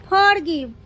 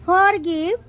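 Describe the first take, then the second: No difference in how they are said.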